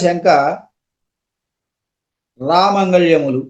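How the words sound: The break comes right after 'shanka'. Why doubt; these are chickpeas.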